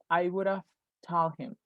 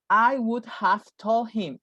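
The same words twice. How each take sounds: First: The word have is reduced to a v. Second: The word have is pronounced fully. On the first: The speaker calls it right. "the have sounds like just an F" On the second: The speaker calls it wrong. "We never say that"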